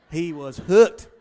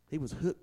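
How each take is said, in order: First: "hooked" hit loud with a rising finish; emphatic repeat. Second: Said in the usual way. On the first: Shown as a demonstration. Preacher drives home that Bill fell hard, emphatic. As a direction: punch "hooked" for the congregation. Repeated, second time punched.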